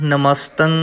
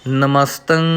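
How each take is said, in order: No difference in how they are said.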